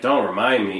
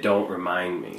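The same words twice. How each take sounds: First: It is said in a light, casual tone. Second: It is said in a grave, pointed tone.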